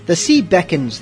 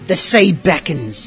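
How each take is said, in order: First: It is read in his normal voice. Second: It is read in a put-on pirate voice.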